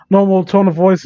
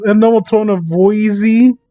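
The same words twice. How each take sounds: First: Said in the usual way. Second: "voicey" said with an extra "ee" on the end; mocking mispronunciation. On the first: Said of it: "I don't know how you make a mistake". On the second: Real, not acted. Reader mocks the mistake, stretching voice into "voicey". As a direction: sound out the typo as "voicey", mockingly. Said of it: "how you make a mistake like this".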